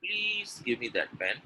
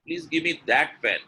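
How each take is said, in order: First: Slow, softer, long-drawn PLEASE with a rise at the end; slow request leaning on PLEASE; pleading intonation. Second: Louder THAT punched, falling on pen; firm request pointing out THAT pen; stress on THAT. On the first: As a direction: stretch out PLEASE, then lift on pen. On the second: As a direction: hit THAT hard, let pen fall. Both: Shown as a demonstration. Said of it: "The communication is different?".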